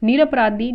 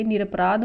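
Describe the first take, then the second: First: निरपराधी ending in a long "dhee"; wrong form. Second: निरपराध ending on "dh"; correct form. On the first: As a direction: say निरपराधी loudly with the final i. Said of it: "अशुद्ध है". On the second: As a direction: say निरपराध without a final i. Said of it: "ये शुद्ध है". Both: Shown as a demonstration.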